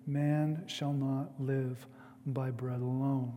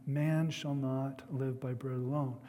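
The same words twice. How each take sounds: First: Said in the usual way. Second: Man given the weight at the start; stress on Man. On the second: Shown as a demonstration. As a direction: lean on the word Man to open the verse. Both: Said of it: "I want to emphasize that first word".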